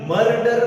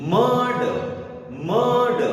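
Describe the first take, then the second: First: मर्डर with both r sounds spoken, louder; wrong pronunciation. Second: मर्ड said as mad, no r; correct pronunciation. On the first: Teacher showing the wrong मर्डर with r. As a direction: say मर्डर rolling each r. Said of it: "मर्डर ऐसा नहीं बोल पढ़ेंगे". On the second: Teacher modelling मर्ड with silent r. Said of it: "दोनों बार मैं र को नहीं बोल रहा हूं". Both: Shown as a demonstration.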